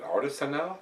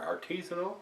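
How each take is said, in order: First: Artisanal, said AR-tuh-suh-nal; first pronunciation option. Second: Artisanal, said ar-TEE-zuh-nal, questioning; alternative pronunciation. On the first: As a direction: Artisanal with short middle vowels, questioning. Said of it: "Or is it Artisanal?". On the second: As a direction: stress a long TEE in Artisanal. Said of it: "Or Artisanal?". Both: Shown as a demonstration.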